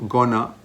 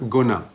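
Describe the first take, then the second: No difference in how they are said.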